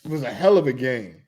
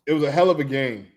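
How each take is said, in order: Both takes have the same delivery.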